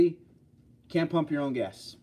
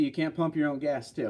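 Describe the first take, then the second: First: Slow, every word weighted; slow emphatic repeat. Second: Said in the usual way. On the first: Shown as a demonstration. Repeating the gas law to viewers, slow and emphatic. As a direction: spell it out slowly for the viewers. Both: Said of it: "But in New Jersey".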